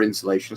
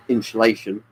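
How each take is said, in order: First: Said in the usual way. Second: Insulation with a slushy sh, inshulation; Sean Connery slip. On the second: Real, not acted. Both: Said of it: "It sounded almost like Sean Connery saying that".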